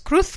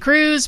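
First: The name ends in a lisped th sound. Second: The name ends in an English z sound. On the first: The speaker calls it right. "but it's Cruz because she's from España" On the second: The speaker calls it wrong. "We say Cruz"

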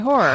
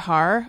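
First: The first vowel is a plain 'or' sound. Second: The first vowel is an 'oh' sound, like 'hoe'. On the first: The speaker calls it right. "I say horror" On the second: The speaker calls it wrong. "I don't say horror"

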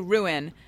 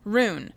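First: The word is said as two syllables. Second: The word is said as one syllable. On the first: The speaker calls it right. "I have to consciously make it two syllables" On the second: The speaker calls it wrong. "My whole life I said rune, like one syllable"

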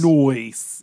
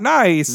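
First: The vowel is stretched into an 'oy' sound. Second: The vowel is a plain 'eye' sound. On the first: "it felt very Eric Andre to say, noice!" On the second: "Not nice"

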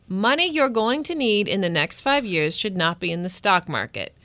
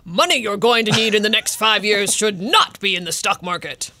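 First: It is said in his normal reading voice. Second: It is said in a put-on lecturing dad voice.

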